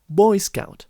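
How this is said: The stress is on the first word. This is the current way of saying it. "the stress is now on the first part of the word"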